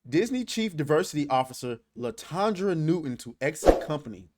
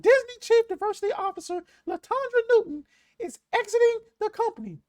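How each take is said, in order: First: It is said in his normal voice. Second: It is said in a Mickey Mouse voice.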